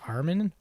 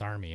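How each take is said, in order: First: The name ends with an 'n' sound. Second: The name ends with an 'ee' sound. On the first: The speaker calls it wrong. "I was pronouncing. I'm like Ar- Armin" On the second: The speaker calls it right. "I think you corrected me. You're like it's Army"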